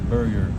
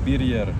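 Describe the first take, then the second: First: The name has an American pronunciation. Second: The name has a Swedish pronunciation. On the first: "you can call it like burger in the American uh, accent" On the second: "it's a Swedish name"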